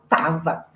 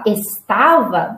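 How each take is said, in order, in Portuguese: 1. A primeira sílaba é omitida, ficando só com duas sílabas. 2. A palavra é dita por completo, com três sílabas. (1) "a gente só fala tava" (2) "ao invés de falar estava, nós não falamos assim"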